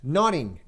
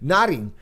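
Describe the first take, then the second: First: The middle consonant is a d sound. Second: The same.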